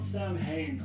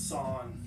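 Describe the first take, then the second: First: It is said as Sam plus hain, with h. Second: It is said without a middle h sound. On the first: The speaker calls it wrong. "It's not Sam Hain" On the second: The speaker calls it right. "I think it's Sawn"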